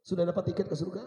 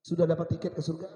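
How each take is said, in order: Both takes have the same delivery.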